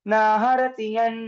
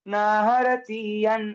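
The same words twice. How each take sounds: First: The 'i' vowel is kept short. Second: The 'i' vowel is drawn out long. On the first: The speaker calls it right. "तो उसको drag नहीं करना है" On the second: The speaker calls it wrong. "ऐसे नहीं"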